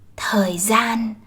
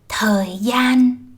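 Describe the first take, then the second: First: The second word begins with a z sound. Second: The second word begins with a y sound. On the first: This is the northern pronunciation. "while in the North, these two sounds are pronounced as z" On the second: This is the southern pronunciation. "She pronounces words starting with D and G I the southern way"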